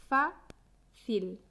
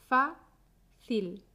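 Both takes have the same delivery.

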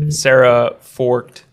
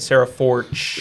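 First: The surname is said with a T sound. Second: The surname is said without a T sound. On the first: The speaker calls it wrong. "Did I say that right?" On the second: The speaker calls it right. "Silent T?"

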